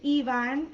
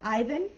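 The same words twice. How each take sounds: First: The name is said with a Spanish pronunciation. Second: The name is said with an English pronunciation. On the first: The speaker calls it right. "you speak Spanish, which means your name is Ivan" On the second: The speaker calls it wrong. "and not Ivan"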